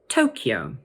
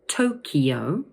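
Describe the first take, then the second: First: The word is said with two syllables. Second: The word is said with three syllables. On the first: "two syllables" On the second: "three syllables and be pronounced Tokyo"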